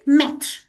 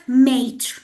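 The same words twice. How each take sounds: First: "maître" said with a short open e, as in "met"; correct French pronunciation. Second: "maître" mispronounced with a long "ay", like "mate"; wrong pronunciation. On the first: Teacher shows students the right word for head waiter, correct pronunciation. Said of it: "the correct pronunciation for this word is". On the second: Teacher warns students how not to say it, wrong pronunciation. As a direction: stretch "maître" into an English-sounding "mate". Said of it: "not maître". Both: Shown as a demonstration.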